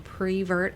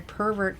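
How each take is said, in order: First: The word begins with the sound 'pre'. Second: The word begins with the sound 'per'. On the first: The speaker calls it wrong. "as you say" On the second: The speaker calls it right. "is the correct pronunciation"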